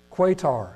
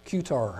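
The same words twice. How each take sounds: First: Qatar with a kw opening and long "ay"; first pronunciation attempt. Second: Qatar opening like "cue", then "tar"; alternative pronunciation. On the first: Preacher reading out a list of nations, Qatar said "KWAY-tar". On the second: Preacher unsure of a country's name, Qatar retried as "KYOO-tar". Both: Shown as a demonstration. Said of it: "however you pronounce that one".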